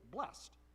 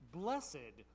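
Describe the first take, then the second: First: It is said as a single syllable. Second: It has two syllables, stressing the last one. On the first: This is how the word is said in ordinary reading. "see this word and we're just reading it, we'd say blessed" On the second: This is the traditional way to recite the Beatitudes. "the right way to say it is in two syllables, emphasis on the last"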